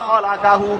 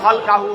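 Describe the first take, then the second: First: The lam is followed by a short a vowel. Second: The lam is said with no following vowel. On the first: It is a past-tense verb describing the thing. "বফতিহিল লাম খালাকা" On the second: It is a verbal noun substituting for the phrase. "বেসুকুনিহা খালকাহু মাসদার"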